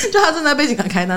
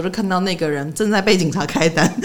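First: Higher, laughing repeat; gleeful laughing repeat. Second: Said in the usual way. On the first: Real, not acted.

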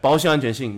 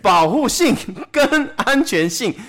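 First: 保护性安全性 slurred together fast; lazy fast talk. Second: 保护性跟安全性 slow, clearly joined by 跟; slow, careful. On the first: Retold or imitated. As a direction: rush 保护性安全性 with no break. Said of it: "现在的人讲话越来越懒，越讲越快". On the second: Shown as a demonstration. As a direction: spell out 跟 between 保护性 and 安全性. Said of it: "以后加一个跟".

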